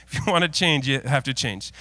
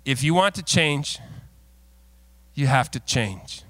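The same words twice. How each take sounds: First: Said in the usual way. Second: Slow, weighty delivery of have to change; quoting himself. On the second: Shown as a demonstration. Pastor quoting himself to the congregation, slow and weighty. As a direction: lean on the word have, then pause. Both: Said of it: "quote myself".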